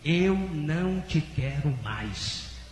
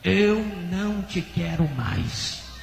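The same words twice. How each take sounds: First: It is said at normal loudness. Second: It is said louder and more forcefully.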